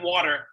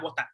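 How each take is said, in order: First: It is said in an American accent. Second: It is said in a Nigerian accent. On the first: This is how people here say it. "And here you're like" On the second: This is how people in Lagos say it. "when I'm in Lagos, I'm like"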